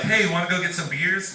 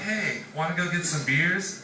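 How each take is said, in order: First: It sounds eager and upbeat. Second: It sounds suggestive and trailing off.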